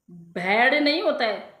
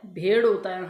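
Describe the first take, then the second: First: भेड़ said with an open "ai" vowel, like "bhaiḍ"; wrong pronunciation. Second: भेड़ with a clean, closed "e" vowel, "bheḍ"; correct pronunciation. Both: Shown as a demonstration.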